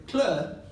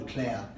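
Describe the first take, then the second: First: Imitated Scouse "Claire", vowel turned to "Clur"; Liverpool accent. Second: Said in the usual way. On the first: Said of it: "Liverpool accent". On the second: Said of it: "quick to correct her".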